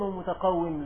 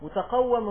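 First: ومتقوم said "wa-mutaqawwim", with i before the m; short i in the last syllable of ومتقوم; kasra variant. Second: متقوم said "mutaqawwam", with a before the m; fatha variant. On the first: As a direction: pronounce ومتقوم with kasra on the waw. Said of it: "ينصون في كتبهم على أنها بالكسر". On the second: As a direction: open a in the last syllable of متقوم. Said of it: "متقوم ومتقوم لغتان". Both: Shown as a demonstration.

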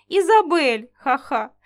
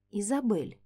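First: Loud name then chuckle; laughing. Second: Softly spoken name; quietly. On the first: Grey tries to calm offended Isabel, laughing. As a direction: call her name still laughing. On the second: Alexander quietly addresses Isabel by the fire, soft-spoken. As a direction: say her name softly, almost under the breath. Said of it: "тихонько проговорил Александр". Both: Acted.

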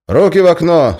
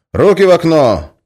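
First: Loud, high barked order; commanding. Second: Loud, high commanding shout; barked order. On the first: Guard commands the prisoner, shouting. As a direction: bark it through the hatch. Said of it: "скомандовал он". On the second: Guard orders the prisoner's hands out, shouting. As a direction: bark the order through the hatch. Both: Acted.

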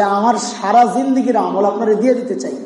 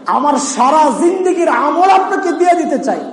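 First: Said in the usual way. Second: Higher-pitched, pressing offer; emphatic plea. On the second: Retold or imitated. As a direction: repeat the offer as an earnest, raised appeal. (উঁচু স্বরে জোরালো আবেদন) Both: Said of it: "Omar বলতেছেন".

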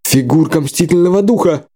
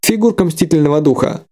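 First: Stammering. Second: Said in the usual way. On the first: Acted. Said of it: "заикаясь, всполошился Бассайн".

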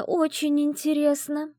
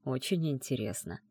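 First: "очень" drawn out slow and higher, teasing. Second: "очень" said softer, low and falling; quiet musing. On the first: Friend teases the heroine, drawing out "очень". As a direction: stretch "очень" out playfully, slowly. Teasing curiosity about the fiancé. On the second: Heroine murmurs the phrase back to herself, softer. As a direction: murmur "очень интересно" softly, thinking it over. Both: Acted.

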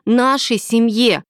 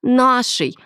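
First: Slow, pressed нашей with falling tune; mild aggressive insistence on нашей семье; stressed repeat. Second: Raised female voice, firm; first insistence on Нашей, short and falling; a hint of an aggressive woman; mild aggressive retort. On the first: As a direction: hammer нашей down deliberately. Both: A narrator's reading. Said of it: "агрессивно ответила Милена".

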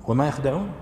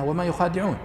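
First: وما يخدعون said short, no long a after خ; wrong reading quoted. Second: وما يخادعون with a long a after خ; correct reading. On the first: Scene: teacher quotes the reading the commentator wrongly gives, short yakhdaʿūn. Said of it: "يعني هو يقول قراءتهم". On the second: Scene: teacher gives students the correct reading, long yukhādiʿūn. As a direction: read يخادعون as yukhādiʿūn, lengthening the خا. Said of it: "الصحيح أنها". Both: Shown as a demonstration.

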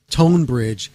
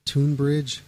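First: Tonebridge with a clear long O; corrected name. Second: Tonebridge said softly as "Toonbridge"; unsure of the name. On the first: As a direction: say "Tonebridge" firmly, first part like "tone". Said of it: "T O N E B R I D G E". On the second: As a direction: say "Tonebridge" tentatively, first vowel like "tune". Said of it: "I think it's". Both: Real, not acted.

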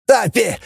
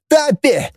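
First: High call of «Тапи!» with a falling end. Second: «Тапи!» called again even higher, strained; louder calling out. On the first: Grigoryan calls the pilot for help, high-pitched. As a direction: shout «Тапи!» down the corridor. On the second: Grigoryan calls the pilot a second time, more desperate. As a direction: push the second «Тапи!» up into a shriek. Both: A narrator's reading. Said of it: "орал Григорян".

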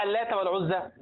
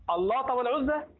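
First: اللات with a thin, light lam; اللات, correct light lam. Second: اللات with a thick, emphatic lam; اللات, mistakenly emphatic lam; wrong heavy lam. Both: Shown as a demonstration. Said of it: "اللات هي مرققة".

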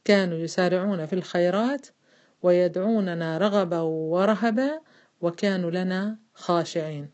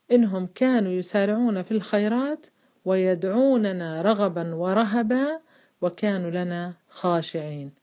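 First: Slow, phrase-by-phrase chanted recitation for the class to repeat; تلاوة جماعية بطيئة; recite along together. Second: Slow chanted tajweed recitation of the verse; قراءة مجودة بطيئة; Quran recitation. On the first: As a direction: lead the women through the verse, stretching رغبا ورهبا. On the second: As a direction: recite it slowly, drawing out ورهبا. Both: Shown as a demonstration. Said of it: "معي أخواتي؟".

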